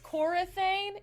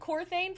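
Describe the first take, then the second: First: The name has an extra vowel after the 'r'. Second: The name has no vowel after the 'r'. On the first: The speaker calls it right. "there's an a in there" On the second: The speaker calls it wrong. "I've been saying Corthane for so long"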